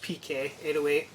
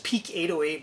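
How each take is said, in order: First: The first part is said as two letters. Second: The first part is said as the word peak. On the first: The speaker calls it right. "it's my initials" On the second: The speaker calls it wrong. "It says Peak eight oh eight"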